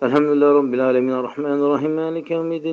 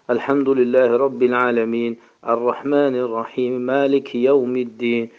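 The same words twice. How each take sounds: First: It is recited in a rushed, run-together way. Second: It is recited quickly but each word is distinct. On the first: The reciter cannot follow what is being said. The speaker calls it wrong. "Yani bu cür yani düzgün değil" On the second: This is the fastest acceptable way to recite. The speaker calls it right. "en tez tez okuduğu halde böyle okuyabilir"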